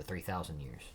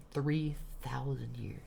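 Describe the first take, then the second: First: Said in the usual way. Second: "Three thousand years" drawn out slowly, higher; incredulous emphasis. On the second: Shown as a demonstration. Reader repeats the figure to camera, "Three thousand years" slow and incredulous. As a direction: say "Three thousand years" slowly, each word set apart. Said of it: "gotta get a weird look at the camera".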